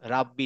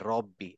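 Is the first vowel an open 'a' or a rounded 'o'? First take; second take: open 'a'; rounded 'o'. First: The first vowel is an open 'a' sound. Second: The first vowel is a rounded 'o' sound. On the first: The speaker calls it wrong. "রাব্বি না" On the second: The speaker calls it right.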